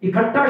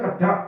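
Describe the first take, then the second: First: The initial vowel is fully pronounced. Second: The initial vowel is dropped or reduced.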